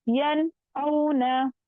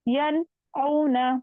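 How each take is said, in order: Both takes have the same delivery.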